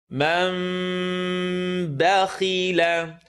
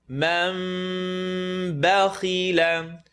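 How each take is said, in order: The two takes are said the same way.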